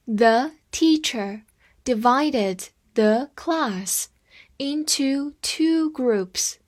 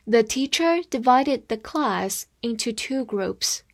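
First: Slow, chunked phrase-by-phrase reading. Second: Said in the usual way. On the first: Shown as a demonstration. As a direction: read it slowly in pieces for learners. (分段慢读) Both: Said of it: "我们再读一遍".

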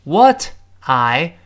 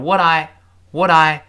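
First: Said in the usual way. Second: "what I" run together as wuh-dai, t voiced; linked WHAT I. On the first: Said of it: "What I变成what I". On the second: Shown as a demonstration. Teacher drills linking for learners, "what I" joined with a d. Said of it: "会发生连读了".

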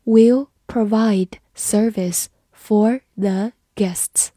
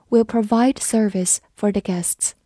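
First: Slow, careful reading for learners. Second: Said in the usual way. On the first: Shown as a demonstration. Teacher reads slowly for the class. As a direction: read it slowly, word by word. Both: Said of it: "好，慢读一遍。".

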